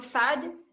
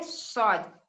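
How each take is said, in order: First: "साद" with a light s and open "aa", rising; name "साद" the Urdu way, thin s; Urdu letter name. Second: "सौद" with a heavy s and rounded "aw", falling; thick Arabic letter. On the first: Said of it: "Urdu में पढ़ते हैं हम लोग". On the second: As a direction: say "सौद" thick and full-mouthed. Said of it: "सौद को मोटा पढ़ेंगे". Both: Shown as a demonstration.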